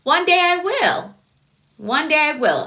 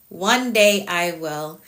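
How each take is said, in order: First: Much higher, sing-song "One day I will"; playful high promise. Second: Slow, deliberate "One day I will"; slow firm promise. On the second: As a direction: spell it out slowly like a vow. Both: Shown as a demonstration. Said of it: "You're laughing at me".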